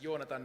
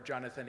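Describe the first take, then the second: First: The name is pronounced the Finnish way. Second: The name is pronounced the English way.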